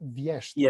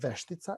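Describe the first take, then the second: First: The first syllable has a 'y' glide, 'vje'. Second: The first syllable is a plain 've'. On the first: "She says Vještica" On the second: "the translation for witch is uh, Veštica"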